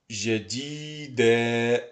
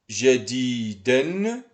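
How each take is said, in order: First: The word ends with a long a vowel. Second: The word ends with an n sound. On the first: The word ends the sentence. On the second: The word is in the middle of the sentence.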